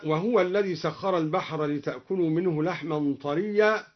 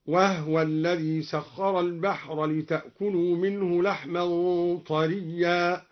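First: Said in the usual way. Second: "وهو" as wah-wa, no vowel on the h; silent-vowel ha. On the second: Shown as a demonstration. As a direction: recitation with "وهو" said wahwa. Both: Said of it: "سكن الهاء".

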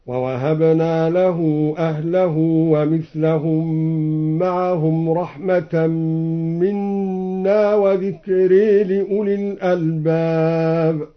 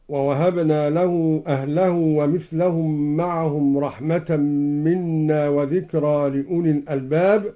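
First: "وذكرى" said as wa-dhikree, aa tilted toward ee; measured chant, "وذكرى" ending in a long e; imala on dhikra. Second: Said in the usual way. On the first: Shown as a demonstration. Reciter showing Al-Duri's reading, "وذكرى" as wa-dhikree. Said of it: "بإمالة ذكرى".

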